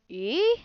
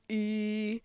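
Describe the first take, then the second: First: The pitch goes up from mid. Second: The pitch stays level and low. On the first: "a rising tone is like e, like in a question" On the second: "a low tone is like e"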